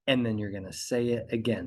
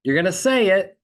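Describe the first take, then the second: First: "say it again" dropped below the first statement; subdued repetition. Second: "say it" punched high and loud; emphatic first statement. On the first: Coach showing lawyers the repeat after a pause, subdued. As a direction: let "say it again" settle down after the silence. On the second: Coach showing lawyers the first statement before a pause, emphatic. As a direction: hit "say it" hard, raised pitch, ready for a pause. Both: Shown as a demonstration. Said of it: "now we're combining repetition with the pause".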